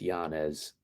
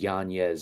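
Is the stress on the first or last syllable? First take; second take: first; last. First: The stress falls on the first syllable. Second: The stress falls on the last syllable. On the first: "I'm gonna stick with Yanez. It just flows off the tongue better" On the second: "too much of a tongue twister to add that extra emphasis on the end"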